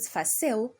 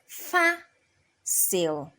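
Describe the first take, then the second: First: The stress is on the second syllable. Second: The stress is on the first syllable. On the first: The speaker calls it wrong. "If you pronounce it fácil, you are totally wrong" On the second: The speaker calls it right. "you raise your voice at the a"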